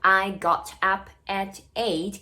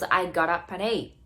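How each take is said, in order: First: Each word is said separately without linking. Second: The words run together with linked sounds.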